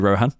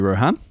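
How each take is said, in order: First: The stress falls on the usual syllable. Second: The stress falls on the unusual syllable. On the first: The speaker calls it right. "You'll do it again" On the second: The speaker calls it wrong. "I stressed the wrong bit of your word"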